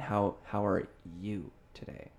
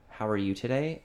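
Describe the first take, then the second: First: The word 'you' is strongly emphasized. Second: The word 'you' gets no special emphasis. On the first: The question is returned, implying something is up with the other person. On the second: It is an ordinary, neutral greeting.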